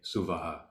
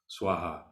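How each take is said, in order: First: A vowel separates the s and the w. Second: The s and the w join without a vowel. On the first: This is a variant form heard elsewhere. "Sometimes you might hear it say Suvaha" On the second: This is the form used for this song. "and for this song"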